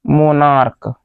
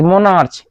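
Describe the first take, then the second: First: मोनार्क with a hard k at the end; मोनार्क ending in a hard k sound; correct pronunciation. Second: मोनार्च with a ch sound, as it is written; मोनार्च ending in a ch sound, spelling-style; spelling pronunciation. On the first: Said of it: "इसको बोलते हैं मोनार्क बोलते हैं". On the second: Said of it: "इसको बोलते हैं मोनार्क". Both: Shown as a demonstration.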